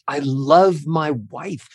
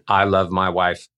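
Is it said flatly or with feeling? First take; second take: with feeling; flatly. First: It is said warmly, with emotion. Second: It is said flatly, without emotion.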